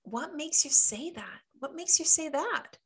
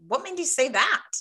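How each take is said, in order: First: High, lilting query; allowed comeback. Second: Quick, louder, higher challenge; a pointed mock comeback, pitched up; how not to say it. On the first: Coach shows clients how they can ask back, high and lilting. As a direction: ask it high with innocent curiosity. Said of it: "But you can". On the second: Coach shows clients how not to say the question, pointed and loud. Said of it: "you're not gonna say it like". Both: Shown as a demonstration.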